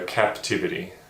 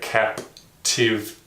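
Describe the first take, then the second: First: The syllables run together without pauses. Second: The syllables are split apart with pauses. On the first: "blend them together into the actual word itself as we say it naturally" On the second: "forced the student to see the individual sounds as they are"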